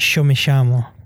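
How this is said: It is said with an Argentine Spanish accent.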